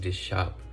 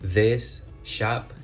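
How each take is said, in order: First: The words run together; the s is dropped. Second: The two words are separate; the s is heard.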